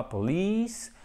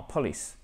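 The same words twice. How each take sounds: First: "police" as po-LEEECE, long stressed second syllable; "police" with a drawn-out relaxed ee; correct long I. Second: "police" as PAW-lis, short second vowel; "police" softer, without the long ee; mispronounced short I. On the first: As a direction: stretch the ee of "police". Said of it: "il n'entend pas police". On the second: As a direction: stress the first syllable of "police". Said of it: "mais il entend police". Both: Shown as a demonstration.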